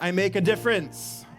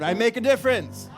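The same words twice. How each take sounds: First: It is said at normal volume. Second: It is said very loudly.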